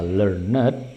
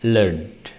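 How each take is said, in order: First: "learned" misread as ler-net; wrong two-syllable learned. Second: "learned" said as lernd, falling; slow model "learned" with final d; correct one-syllable learned. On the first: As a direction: sound out the ed in "learned" as its own syllable. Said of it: "bukan dibaca learned". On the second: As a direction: close "learned" straight on nd. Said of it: "tapi dibaca learned". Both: Shown as a demonstration.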